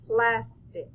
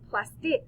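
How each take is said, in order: First: The stress is on the first syllable. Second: The stress is on the second syllable.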